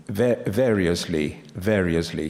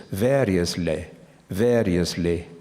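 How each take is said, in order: First: Said in the usual way. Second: "Variously" imitated in old RP, a touch slower. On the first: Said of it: "pronounces the word". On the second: Lecturer imitates the BBC man saying "Variously". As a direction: echo the old announcer's "Variously". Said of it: "He says".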